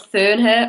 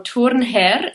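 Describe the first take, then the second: First: The surname is pronounced in an English way. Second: The surname is pronounced in a Swiss way.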